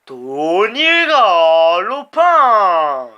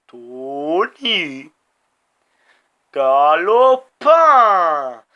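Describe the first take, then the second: First: Loud, very slow stretched name call; long loud sportscaster cry; drawn-out announcer call. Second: Name broken in two, each half stretched; two-part loud stadium call; split announcer call. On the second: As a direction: pause after the first name, then belt the surname. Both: Real, not acted. Player hyping his rider's name.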